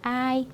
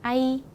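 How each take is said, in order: First: 아이 with 아 drawn out and 이 brief; 아이 weighted on the first vowel; long 아, short 이. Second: 아이 with the final 이 drawn out; 아이 weighted on the second vowel; short 아, long 이. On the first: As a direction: linger on 아 before a short 이 in 아이. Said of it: "그래서 요거는". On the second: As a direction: leave 아 quickly and hold 이 in 아이. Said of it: "이렇게 읽게 됩니다". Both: Shown as a demonstration.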